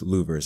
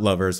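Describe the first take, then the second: First: The first vowel sounds like 'loo'. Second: The first vowel sounds like 'love'. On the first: The speaker calls it right. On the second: The speaker calls it wrong. "not lovers"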